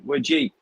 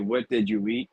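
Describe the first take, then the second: First: The words are squeezed together into few syllables. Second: Every word is said clearly and separately. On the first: "We say" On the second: "we don't say"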